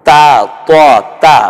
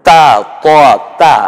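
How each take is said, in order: The two takes are said the same way.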